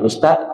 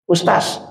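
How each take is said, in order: First: The word ends with a th-like consonant. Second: The word ends with a plain z consonant. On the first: The speaker calls it right. "seharusnya dipanggil Ustadz" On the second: The speaker calls it wrong. "Itu salah kan?"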